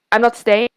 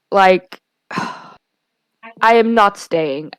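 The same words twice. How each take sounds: First: Said in the usual way. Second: Sigh, then very slow with the stress on "am" in "I am not staying"; sigh, then lean hard on "am" in "I am not staying", slowly; firm insistence. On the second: Retold or imitated. Retelling refusing the girl's offer to stay, sighing, slow stress on "am". Insisting she will leave.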